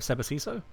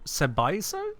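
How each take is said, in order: First: The name is said with the second S. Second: The name is said without the second S. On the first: "Instead of" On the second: "most people skip the second S in your name"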